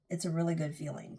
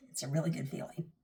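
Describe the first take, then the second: First: Said in the usual way. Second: Soft, breathy whisper. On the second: Real, not acted. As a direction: whisper it like a secret. Whispered repeat after "trust me.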